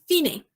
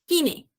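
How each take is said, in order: The two takes are said the same way.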